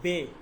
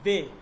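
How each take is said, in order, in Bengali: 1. বর্ণের নামটি 'e' স্বরধ্বনি দিয়ে শেষ হয়। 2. বর্ণের নামটি 'e' স্বরধ্বনি দিয়ে শেষ হয়।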